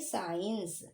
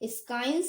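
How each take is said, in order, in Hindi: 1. इस शब्द की शुरुआत साधारण s ध्वनि से होती है। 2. इस शब्द की शुरुआत sk ध्वनि से होती है। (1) "अब हम इसे पढ़ेंगे साइंस" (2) "इसे हम लोग स्काइंस नहीं पढ़ेंगे"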